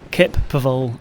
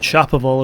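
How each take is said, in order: First: The name begins with a k sound. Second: The name begins with a ch sound. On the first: The speaker calls it right. "they pronounce it as Kep Paval" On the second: The speaker calls it wrong. "It's not Chaparral, as I've been saying all the way through"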